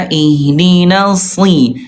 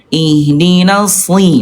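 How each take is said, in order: No difference in how they are said.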